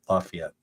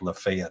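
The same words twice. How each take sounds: First: The name is said with two syllables. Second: The name is said with three syllables. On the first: A local is saying the name. The speaker calls it right. "So locals say Lafayette. It's two syllables" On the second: An outsider is saying the name. The speaker calls it wrong. "they would be like Lafayette, and I'm like, ah, no"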